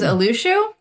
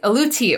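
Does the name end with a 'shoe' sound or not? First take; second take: shoe; not shoe. First: The ending is pronounced like 'shoe'. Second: The ending is not pronounced like 'shoe'. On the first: "That I pronounced it last time, because every time I see the T-I-U, I want to pronounce it as shoe" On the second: "I actually looked it up this time"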